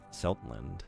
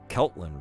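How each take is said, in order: First: The name begins with a soft S sound. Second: The name begins with a hard K sound. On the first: The speaker calls it right. "It's Seruto in uh, Japanese" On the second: The speaker calls it wrong. "I was saying Keltland wrong"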